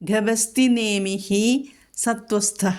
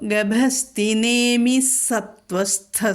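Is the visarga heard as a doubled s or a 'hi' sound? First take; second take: hi sound; doubled s. First: The visarga is sounded as a separate 'hi'. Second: The visarga merges into a strong, doubled s.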